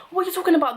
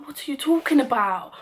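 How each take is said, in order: First: Much higher, louder outraged yell; retold furious yell. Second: Raised, louder angry demand; retold angry shout. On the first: Yelling again at the club manager, a higher, louder outraged yell. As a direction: blow up at him in disbelief. Angry retort at the bouncer. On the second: Yelling at the club manager, an outraged raised voice. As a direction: fire the question back at him, outraged.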